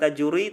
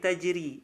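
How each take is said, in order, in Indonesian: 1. Bunyi r dibaca tebal. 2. Bunyi r dibaca tipis. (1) "Bukan tajuri" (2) "Bacanya tipis"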